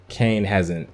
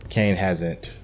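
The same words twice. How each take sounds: The two takes are said the same way.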